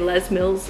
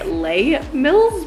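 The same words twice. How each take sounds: First: The name is pronounced in an English way. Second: The name is pronounced in a French way. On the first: The speaker calls it right. "even they say Les Mills, so it's not French" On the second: The speaker calls it wrong. "I want to say Les Mills because it looks French to me"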